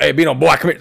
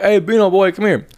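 First: Said in the usual way. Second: Put-on Bino boy called out high and teasing; playful pitched-up call. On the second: Shown as a demonstration. Friend demonstrating inflection, higher playful call to Bino. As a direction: sing it out higher, like calling a buddy over. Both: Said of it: "it's the inflection in your voice".

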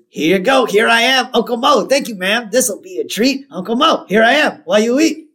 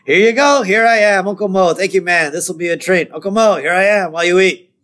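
First: Chirpy high-pitched waiter patter; lightly acted singsong announcement, high. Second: Upset but high singsong patter; grudging routine, pitched up; Moe. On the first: Mo serving birthday fries, in a high, lively patter. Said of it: "now Mo jumps out". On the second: Retold or imitated. Upset Moe serving fries again, high strained patter. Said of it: "Moe's very upset".

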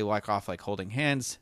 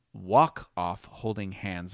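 First: Said in the usual way. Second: Slow, deliberate 'walk off holding hands'; careful clearer repeat. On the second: Real, not acted. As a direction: space out each word for clarity. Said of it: "didn't say that very clearly".

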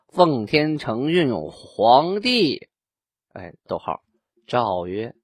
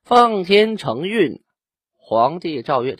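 First: 奉天承运 皇帝 with a pause after 皇帝, then 诏曰; correct phrasing. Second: 奉天承运 drawn out high with a pause before 皇帝诏曰; wrong phrasing. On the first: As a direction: break after 皇帝, then say 诏曰 alone. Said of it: "应该是". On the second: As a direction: read 奉天承运, 皇帝诏曰 as two chunks, the pause after 奉天承运. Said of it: "这个句读不对". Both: Shown as a demonstration.

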